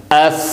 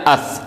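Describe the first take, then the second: First: اف with the ف held longer for the shadda; lengthened doubled sound. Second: Said in the usual way. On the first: Shown as a demonstration. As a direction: stretch the ف in اف slightly. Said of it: "تھوڑا سا ہم اس کو لمبا کر دیں گے". (اف میں ف کی آواز تھوڑی لمبی) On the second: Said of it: "اگر مشدد نہ ہو تو ہم پڑھتے ہیں اف".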